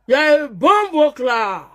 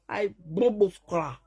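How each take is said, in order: First: "bombo cry" slow and louder, stretched; slow mocking taunt; drawn-out taunt. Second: Said in the usual way. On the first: Real, not acted. Repeated slowly, louder.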